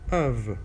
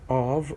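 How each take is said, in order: First: A weak schwa vowel followed by a v sound. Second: A full stressed vowel followed by a v sound. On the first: The next word starts with a vowel. "schwa, v" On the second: It is the rarely used emphatic form. "the strong, the stressed one"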